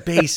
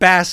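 First: The vowel is long, rhyming with face. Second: The vowel is short, rhyming with mass. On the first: The word names a low musical pitch. The speaker calls it right. "It's bass and treble" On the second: The word names a fish. The speaker calls it wrong. "It's not bass and treble. It's not a fish and treble"

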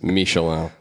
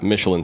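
First: The word is pronounced the French way. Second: The word is pronounced the English way. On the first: "The way you say Michelin is Michelin, because it's a French word" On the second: "that's the English way to say it"

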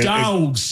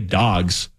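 First: The word is drawn out with strong emphasis. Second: The word is said plainly without emphasis. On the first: The speaker calls it right. "You gotta get into it, man" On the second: The speaker calls it wrong. "You can't just say dogs"

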